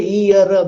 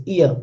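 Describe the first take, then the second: First: "ear" ending in a clear, voiced R; Hindi-style R in ear. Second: "ear" with its final R left silent; English silent R in ear. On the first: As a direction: say "ear" with the final R fully pronounced. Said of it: "In Hindi, you will say". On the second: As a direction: say "ear" as "ee-uh", no R heard. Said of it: "this is not the case". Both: Shown as a demonstration.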